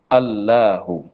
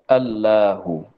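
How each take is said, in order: No difference in how they are said.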